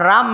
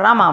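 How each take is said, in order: First: The word ends without a final vowel. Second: The word ends with a final vowel. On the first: This is how it is said here. "इथं आपण राम म्हणतो" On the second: This is how it is said in America. "तिथं रामा म्हणतात"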